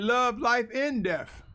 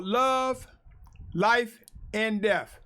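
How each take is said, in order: First: "love" set off, then "life, and death" run together slowly; misread phrasing. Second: Pauses between "love", "life" and "death"; separate items. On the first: Preacher showing how some may misread it, words run together. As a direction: join "life, and death" as one drawn-out phrase. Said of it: "Some may take this as I'm saying". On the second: Preacher announcing his segment's topic, three separated items. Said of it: "presenting this as in talking about". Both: Shown as a demonstration.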